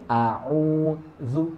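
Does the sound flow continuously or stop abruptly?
stops abruptly. The voice and breath stop abruptly. The speaker calls it wrong. "Jangan nafas atau suaranya terhenti. ... ini salah. Nanti jadinya saktah"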